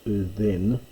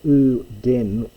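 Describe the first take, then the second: First: The middle consonant is a soft th sound. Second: The middle consonant is a hard d sound. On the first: This is the later pronunciation of the period. "by this stage was being pronounced u then" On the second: This is the older, classical pronunciation. "which we would pronounce it in classical Greek"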